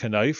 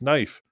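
First: The word begins with a sounded k. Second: The word begins with an n sound. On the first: The speaker calls it wrong. "It's not knife" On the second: The speaker calls it right. "it's knife"

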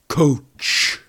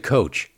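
First: The word is said imitating sports fans, exaggerated. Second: The word is said in a plain, ordinary way.

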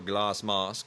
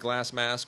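First: It is said in a put-on British accent. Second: It is said in the speaker's normal accent.

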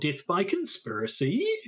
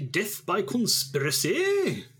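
First: It is said in a New Zealand accent. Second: It is said in a general British accent. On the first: "that's a very New Zealand way of saying death by conspiracy" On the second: "could you say that in a British accent?"

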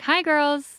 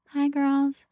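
First: The greeting is shouted loudly. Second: The greeting is said very quietly. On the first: No one else is in the house. "she'll, like, scream it up to the room" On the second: Guests are present and should not be scared. "She'll be really quiet about it"

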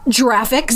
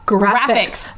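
First: The word begins with a soft j sound. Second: The word begins with a hard g sound. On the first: The speaker calls it wrong. "Not graphics" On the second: The speaker calls it right. "because it stands for graphics"

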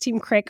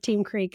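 First: The vowel is short, like in 'sick'. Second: The vowel is long, like in 'seek'.

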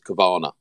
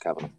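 First: The name is said in a fancy, Nirvana-like way. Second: The name is said in a plain, simple way. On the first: The speaker calls it wrong. "Everyone goes Cavana. ... Why are you saying it like that? ... they're expecting something Nirvana. Bougie" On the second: The speaker calls it right. "no, just Cavana"

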